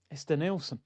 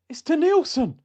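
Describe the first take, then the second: First: Deflated realisation. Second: "It's Denilson" cried out high and loud in disbelief; the penny drops, blurt "It's Denilson"; shocked realisation. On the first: Fan staring at the photo, quietly deflated. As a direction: sink into "It's Denilson" as the hope dies. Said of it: "I looked at the picture, I went". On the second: Fan realising his photo shows Denilson, shocked high cry. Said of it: "I looked back at the picture and I went". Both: Retold or imitated.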